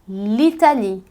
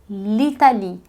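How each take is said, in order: No difference in how they are said.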